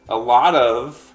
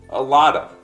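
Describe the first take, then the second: First: The word 'of' is said with its full v sound. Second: The word 'of' is reduced to a short 'uh'.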